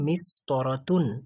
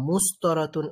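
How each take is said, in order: First: The first vowel is an i sound. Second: The first vowel is a u sound. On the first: The speaker calls it right. "আমাদের এটাকে মিস্তরাতুনই বলা বলতে হবে।" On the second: The speaker calls it wrong. "এরকম কিছু বলা যাবে না।"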